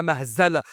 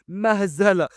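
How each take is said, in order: First: Said in the usual way. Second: مهزلة said coolly as one standalone verdict; cold disdain. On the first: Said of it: "بص لأرثر وقال له". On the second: A narrator's reading. Indra repeating his verdict on Sylvie, coldly. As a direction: drop مهزلة with understated coldness, falling at the end. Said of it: "وكررها بكل برود".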